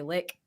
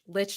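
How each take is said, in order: First: The word ends with a 'k' sound. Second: The word ends with a 'ch' sound. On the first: "I heard people say lick. You can also say it like that if you want" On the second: "Lich like the undead thing"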